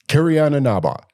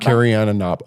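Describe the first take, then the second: First: It is said in a showy announcer voice. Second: It is said in a normal speaking voice.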